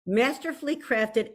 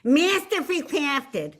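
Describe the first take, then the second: First: Measured, classy blurb reading; a careful, composed classy read; trying to sound classy. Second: Exaggerated South Philly accent, higher and drawn out. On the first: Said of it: "try to sound classy". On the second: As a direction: lay the South Philly on thick, slowly. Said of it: "my South Philly is coming to the fore". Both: Shown as a demonstration.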